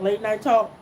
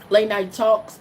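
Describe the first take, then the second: First: The final s sound is left off. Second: The final s sound is pronounced. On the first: The speaker calls it wrong. "I don't pronounce the S" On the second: The speaker calls it right. "It's it's always an S on the word"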